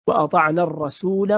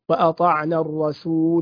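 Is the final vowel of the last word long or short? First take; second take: short; long. First: The final vowel is short, linked to the next word. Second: The final vowel is long before a stop. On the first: The reading continues without a stop. "في حال الوصل سنقول وأطعنا الرسول وقالوا" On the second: The reading stops on this word. "أما لو وقفنا عليها فسنقول وأطعنا الرسول"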